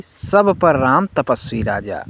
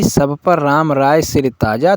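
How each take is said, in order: First: तपस्वी राजा said as the mistaken version; wrong reading shown. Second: राय सिर ताजा said clearly and carefully; correct reading shown. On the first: Teacher quotes the wrong line to students, plain. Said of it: "यह सही बिल्कुल नहीं है". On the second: Teacher tells students the correct reading, carefully. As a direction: give राय सिर ताजा as the right words, deliberately. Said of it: "हम सबको यही पाठ करना है". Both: Shown as a demonstration.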